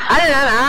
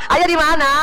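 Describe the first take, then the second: Both takes have the same delivery.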